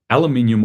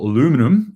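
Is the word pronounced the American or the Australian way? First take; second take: Australian; American. First: It is said the Australian way. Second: It is said the American way.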